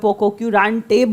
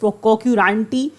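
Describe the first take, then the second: First: The word ends with an 'ay' vowel. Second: The word ends with an 'ee' vowel. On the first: This is another common way people say it. "या पोकोक्यूरांटे बोलते हैं" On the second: This is the dictionary pronunciation. "It is पोकोक्यूरांटी as per the dictionary"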